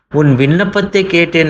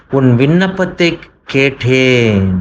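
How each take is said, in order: First: Higher, ringing repeat of the promise; raised repeat. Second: Slow, weighty first statement; measured promise of God; slow emphatic. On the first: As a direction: lift it up the second time. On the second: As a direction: lay the words down deliberately. Preacher voicing God's reply. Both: Acted.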